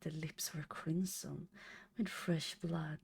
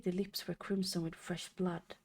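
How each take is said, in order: First: It is read in a creepy, eerie voice. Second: It is read in a plain, ordinary voice. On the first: The speaker calls it right. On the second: The speaker calls it wrong.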